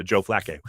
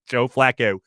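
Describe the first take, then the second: First: Low Baltimore accent on Joe Flacco, Flacco with a Balmer o. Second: Joe Flacco in a Baltimore accent, Flacco with a rounded Balmer o. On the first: Host explains his Balmer accent for Joe Flacco, Baltimore accent. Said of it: "I'm doing the Balmer accent". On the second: Host shows how Baltimore says Flacco, Baltimore accent. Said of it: "the way everyone says it in Baltimore". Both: Shown as a demonstration.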